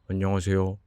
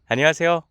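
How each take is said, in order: First: It sounds dull and not bright. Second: It sounds very bright and smiling. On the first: The speaker calls it wrong. "입꼬리를 내린 상태에서 제가 아무리 밝게 하려고 해도 밝게 안 돼요" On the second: The speaker calls it right. "눈까지 웃어보는 거고 기분까지 조금 밝게 해보는 거예요"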